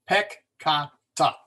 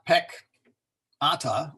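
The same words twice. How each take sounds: First: Peccata in separate slow syllables, pec-ca-ta; correct syllable split. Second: Peccata broken slowly as pec-ata; wrong syllable split. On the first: Teacher showing double-letter rule, peccata syllable by syllable. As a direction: split peccata between the two Cs, slowly. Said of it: "is pronounced". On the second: Teacher showing what to avoid, peccata wrongly split pec-ata. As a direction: drop the second C of peccata after a break. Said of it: "not peccata". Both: Shown as a demonstration.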